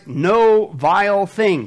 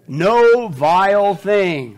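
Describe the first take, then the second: First: No vile thing dragged and loud; slow emphatic. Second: Slow, loud no vile thing; slow emphatic. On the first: Acted. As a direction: lean on no, then stretch it. Repeat of scripture, slowed. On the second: Shown as a demonstration. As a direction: drag out each word, hitting no. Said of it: "Keep reading".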